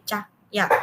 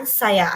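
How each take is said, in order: First: "cah-, ya" broken apart, first syllable as cah; imitating mispronunciation. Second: Said in the usual way. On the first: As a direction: mimic a deaf speaker clipping "cah-, ya". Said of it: "akan menjadi".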